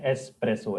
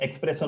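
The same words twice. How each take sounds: First: The word starts with an 'es' sound. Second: The word starts with an 'ex' sound. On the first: The speaker calls it right. "Espresso है. As simple as that" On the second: The speaker calls it wrong. "काफी लोग एक्सप्रेसो बोलते हैं. Espresso नहीं है"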